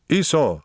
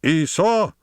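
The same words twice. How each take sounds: First: High-pitched call to a dog; commanding call that falls at the end. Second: Very high, commanding cry to a dog; imperious high-pitched call; masterfully raised voice. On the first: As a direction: order the dog over firmly. Master commands his tired dog. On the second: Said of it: "in a masterfully raised voice". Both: A narrator's reading.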